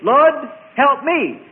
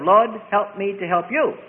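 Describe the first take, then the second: First: Pleading cry, louder and higher; selfish prayer. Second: Said in the usual way. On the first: Shown as a demonstration. Preacher acts out a self-centred prayer, pleading loudly. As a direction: call out the selfish plea. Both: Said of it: "instead of".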